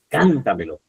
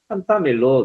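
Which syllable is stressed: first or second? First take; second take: first; second. First: The stress is on the first syllable. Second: The stress is on the second syllable. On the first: The speaker calls it right. "y no está, es cántamelo" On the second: The speaker calls it wrong. "otro error que cometen muchas personas ... ¿Dónde la ponen la tilde? En ta"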